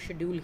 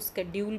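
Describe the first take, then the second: First: Schedule starts with a sh sound, British style. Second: Schedule starts with a sk sound, American style.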